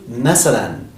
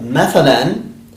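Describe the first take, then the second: First: The middle consonant is an 's' sound. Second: The middle consonant is a voiceless 'th' sound. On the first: "to masalan" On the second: "The tha can also change from"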